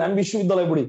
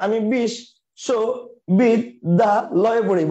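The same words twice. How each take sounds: First: Said in the usual way. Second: Very slow, বিশ্ববিদ্যালয়ে split syllable by syllable; chopped apart. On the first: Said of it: "আপনি একবারই বলেন". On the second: Shown as a demonstration. Teacher mocking how nobody really talks, drawn out. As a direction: drag বিশ্ববিদ্যালয়ে out in separate beats. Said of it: "আপনি তো আর বলেন না".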